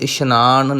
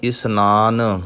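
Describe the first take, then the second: First: The second consonant is a 'sh' sound. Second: The second consonant is a plain 's' sound. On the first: The speaker calls it wrong. "इशनान नहीं उच्चारण करना" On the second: The speaker calls it right. "ਸੱਸੇ ਦੇ ਪੈਰ ਵਿੱਚ ਬਿੰਦੀ ਨਹੀਂ ਲਾਉਣੀ"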